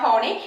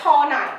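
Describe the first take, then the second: First: The name ends with an 'ee' sound. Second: The name ends with an 'eye' sound. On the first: The speaker calls it wrong. "It's not ഹോണി" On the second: The speaker calls it right. "It's ഹോണായ് കേട്ടോ"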